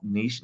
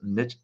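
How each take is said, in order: First: "niche" said as "neesh", long ee and a sh ending; "niche" pronounced neesh. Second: "niche" said as "nitch", short i and a ch ending; "niche" pronounced nitch. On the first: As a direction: rhyme "niche" with "leash", French style. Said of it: "Niche is actually incorrect". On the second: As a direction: rhyme "niche" with "pitch". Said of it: "it's pronounced niche". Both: Shown as a demonstration.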